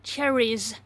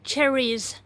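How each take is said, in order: The two takes are said the same way.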